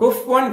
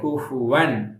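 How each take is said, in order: First: The 'f' runs straight into 'wan' without a vowel. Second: The 'f' is followed by a short 'u' vowel. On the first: The speaker calls it wrong. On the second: The speaker calls it right.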